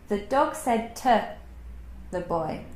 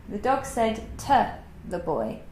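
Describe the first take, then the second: No difference in how they are said.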